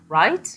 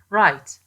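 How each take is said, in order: First: The pitch rises at the end. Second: The pitch falls at the end. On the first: It is a question. "with the pitch of the voice rising" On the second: The speaker is agreeing. "falling pitch is more likely to be heard as confirmation or agreement"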